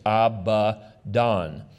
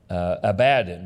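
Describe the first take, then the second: First: The name follows the stress shown by accent marks. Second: The name has a familiar anglicized English stress. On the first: "if you look at the accent marks, you can see it's Abaddon" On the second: "we anglicize it, and I've always heard it pronounced Abaddon"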